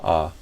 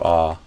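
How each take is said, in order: First: The vowel is open and unrounded, like 'ah'. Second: The same.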